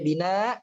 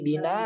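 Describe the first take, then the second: First: The final hamzah is cut off without a vowel. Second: The word ends with a lengthened 'a' vowel. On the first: The speaker calls it wrong. "nggak boleh bina" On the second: The speaker calls it right. "tapi bina"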